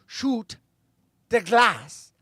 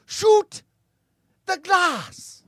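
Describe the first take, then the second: First: Lightly acted German-accented command, a bit higher; Hans Gruber. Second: Put-on loud, very high German-accented shout; Hans Gruber. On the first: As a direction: order it with a German accent, restrained. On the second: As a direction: yell the order as a German villain. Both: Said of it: "the German Hans Gruber speaks in Die Hard".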